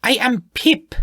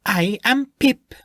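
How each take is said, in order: First: Put-on high, annoyed, with a clear Spanish accent; stronger Spanish accent. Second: Put-on high, slow, faint Spanish accent; light Spanish accent. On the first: The gnome repeats her name, annoyed, Spanish accent. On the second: The gnome introduces herself, faint Spanish accent. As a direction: announce it with dignity in a hint of Spanish. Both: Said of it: "her Spanish accent more clearly heard this time".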